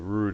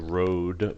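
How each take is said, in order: First: The vowel sounds like the one in 'food'. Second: The vowel sounds like the one in 'code'. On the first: "the rood is usually the way we would pronounce it" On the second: "you could call it road"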